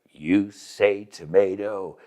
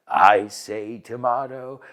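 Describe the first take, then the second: First: Tomato said tuh-MAY-toh, slowly; measured "tomato" rhyming with potato; long A in tomato. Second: Tomato said tuh-MAH-toh, slowly; measured "tomato" with an ah vowel; broad A in tomato. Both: Shown as a demonstration. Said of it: "several accepted pronunciations".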